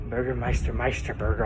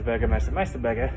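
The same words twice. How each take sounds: First: The name is said slowly and carefully. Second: The name is said at a normal, quick pace.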